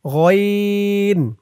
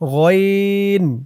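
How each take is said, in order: Both takes have the same delivery.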